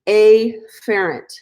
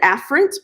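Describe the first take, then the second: First: The opening 'a' sound is stressed and exaggerated. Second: The opening 'a' sound is said plainly. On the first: The speaker calls it wrong. "I like to mispronounce this word on purpose" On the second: The speaker calls it right. "you pronounce it afferent"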